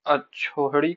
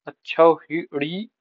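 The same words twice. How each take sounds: First: अछोहड़ी with 'o' and no 'i' after it; misspelt form. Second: अछौहिड़ी drawn out with 'au' and 'hi'; corrected form in syllables. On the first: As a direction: say अछोहड़ी slowly as 'achho-hadi'. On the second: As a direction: say अछौहिड़ी very slowly, 'achhau-hi-di'. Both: Shown as a demonstration. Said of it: "शुद्ध शब्द क्या है".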